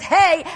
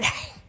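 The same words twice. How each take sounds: First: It is said plainly, without extra breath. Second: It is breathy, air released from the throat.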